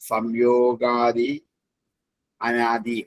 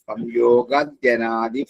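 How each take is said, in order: First: The two words are said separately, unjoined. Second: The two words are joined into one.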